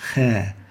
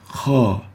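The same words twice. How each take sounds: First: The syllable is light, without velarization. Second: The syllable is heavy and velarized. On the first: The speaker calls it wrong. "not kha" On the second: The speaker calls it right.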